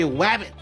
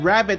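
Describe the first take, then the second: First: The word begins with a W sound. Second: The word begins with an R sound. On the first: "I say wabbit" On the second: "instead of saying rabbit"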